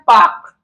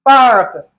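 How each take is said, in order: First: The R sound is silent after the vowel. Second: The R sound is pronounced after the vowel. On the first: "British में क्या पढ़ते हैं" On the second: "इसे American में क्या पढ़ते हैं"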